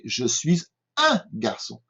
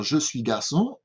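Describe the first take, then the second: First: Slow down and set UN apart; UN stressed and drawn out, then garçon. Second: Said in the usual way. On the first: Shown as a demonstration. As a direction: lean on the word UN before garçon. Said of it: "on dit «je suis un garçon»". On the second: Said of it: "on ne peut pas dire".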